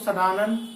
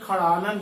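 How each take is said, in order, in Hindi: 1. शब्द की शुरुआत s ध्वनि से होती है। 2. शब्द की शुरुआत kh ध्वनि से होती है। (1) "कभी भी सड़ानन नहीं पढ़ोगे" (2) "इसे खड़ानन पढ़ा जाता है"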